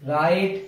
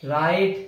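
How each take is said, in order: Both takes have the same delivery.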